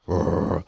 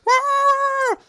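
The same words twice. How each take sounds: First: Big dog bark. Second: Very high yappy bark from a tiny dog; little dog bark. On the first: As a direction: lower answering bark. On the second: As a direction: yap at him like a little dog. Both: Retold or imitated. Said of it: "Yo, your bark is pretty".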